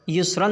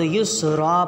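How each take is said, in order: First: The word ends with an '-an' nasal ending. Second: The word ends with a long 'a' vowel. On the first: The speaker calls it wrong. "नहीं पढ़ेंगे" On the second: The speaker calls it right. "तो युस्रा पढ़ेंगे"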